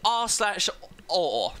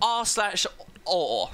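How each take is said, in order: First: The word is said in a British accent. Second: The word is said in a British accent.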